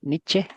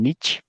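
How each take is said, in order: First: It ends with an audible final vowel sound. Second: It ends without any final vowel sound. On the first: This is the original German pronunciation. The speaker calls it right. "se pronuncia así, con la E al final" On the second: This pronunciation comes from English influence. The speaker calls it wrong. "por influencia del inglés... la E del final no se pronuncia"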